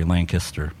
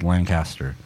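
First: It is said the local Amish-country way. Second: It is said in the speaker's general way.

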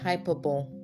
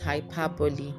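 First: The word ends without a final 'ee' sound. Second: The word ends with a final 'ee' sound. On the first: The speaker calls it wrong. "That's what a lot of Nigerians say" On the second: The speaker calls it right. "But the real pronunciation is hyperbole"

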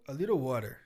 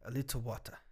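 First: It is said with an American accent. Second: It is said with a British accent.

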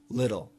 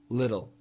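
First: The T is a soft flap sound. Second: The T is a soft flap sound.

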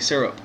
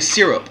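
First: The first syllable rhymes with 'stir'. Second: The first syllable does not rhyme with 'stir'. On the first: This is how the speaker says it. "Like stir up, yeah, but without the T" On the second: This is how the other person says it. "you say syrup"

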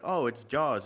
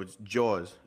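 First: It is said in a plain, general accent. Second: It is said with a New York accent.

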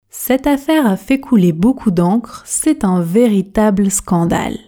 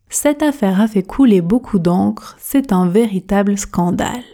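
Both takes have the same delivery.

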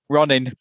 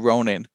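First: It is said in a Yorkshire accent. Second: It is said in a non-Yorkshire accent.

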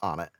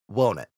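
First: The name follows its English spelling-based pronunciation. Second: The name departs from its spelling-based pronunciation. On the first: This is how the spelling suggests it is said. The speaker calls it wrong. "the English pronunciation of it, when you look at English, it should be pronounced on it" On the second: This is how the name is actually said. The speaker calls it right. "But I think it's pronounced won't it"

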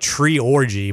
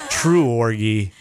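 First: The first syllable sounds like 'tree'. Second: The first syllable sounds like 'true'. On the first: The speaker calls it wrong. "I want to say like tree orgy" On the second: The speaker calls it right. "but it's true orgy"

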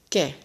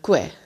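First: No w sound follows the k. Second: A w sound follows the k. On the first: This is how it is said in Spanish. The speaker calls it right. "Maar in het Spaans zeg je ke en ki" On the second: This is how Dutch speakers would read it. The speaker calls it wrong. "veel mensen hebben de neiging, ... om kwe te zeggen"

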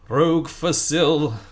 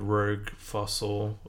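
First: It is said in a special put-on voice. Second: It is said in a normal speaking voice. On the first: The speaker calls it right. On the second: The speaker calls it wrong.

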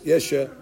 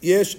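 First: An extra vowel is sounded after the final consonant. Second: The word ends on the bare final consonant. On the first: The speaker calls it wrong. "They move it" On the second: The speaker calls it right. "It's not"

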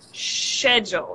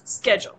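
First: The word begins with an sh sound. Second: The word begins with an sk sound. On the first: "In Scottish or British English, would say schedule, right? With a sh sound at the beginning?" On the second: "So in American English, it's always schedule"

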